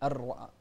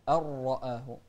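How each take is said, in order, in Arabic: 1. صوت الراء خفيف ورفيع. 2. صوت الراء ثقيل وغليظ. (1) "ما نقول الرأى" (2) "الراء هني إذا كانت مفتوحة فهي مفخمة"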